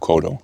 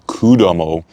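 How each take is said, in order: First: The name is said with two syllables. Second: The name is said with three syllables. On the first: The speaker calls it right. "it's Kumano Kodo" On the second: The speaker calls it wrong. "I was saying it wrong"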